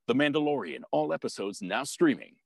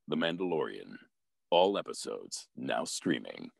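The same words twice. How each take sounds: First: The line is read quickly at a higher pitch. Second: The line is read slowly at a lower pitch. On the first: The spot is short and needs a quick read. "sometimes they have really fast ones, and that his pitch goes up a little bit" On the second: There is plenty of time for the spot. "If I have time, it goes a little bit slower"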